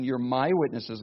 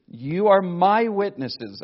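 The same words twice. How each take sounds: First: Said in the usual way. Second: You are my witnesses, slow and louder, leaning on my; stress on my. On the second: Shown as a demonstration. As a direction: press the word my, slow and solemn. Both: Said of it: "notice the personal possession".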